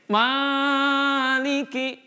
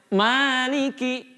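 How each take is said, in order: First: The first vowel is stretched far too long. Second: The first vowel is held for two beats. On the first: The speaker calls it wrong. "tidak sampai maliki" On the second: The speaker calls it right. "Cukup dilantunkan saja suaranya"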